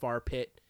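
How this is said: Fire is flattened to sound like 'far'.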